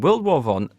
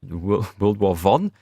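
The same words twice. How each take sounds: First: It is said in the speaker's ordinary accent. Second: It is said in a fake German accent.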